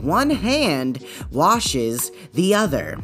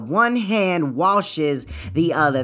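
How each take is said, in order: First: It is said more slowly and deliberately. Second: It is said at a normal speed.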